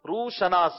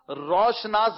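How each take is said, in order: First: It is said as two parts, 'rooh shanaas'. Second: It is said as one word, 'roshnaas'. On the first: The speaker calls it right. "یہ روح الگ لفظ ہے, شناس الگ ہے" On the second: The speaker calls it wrong. "روشناس غلط ہے"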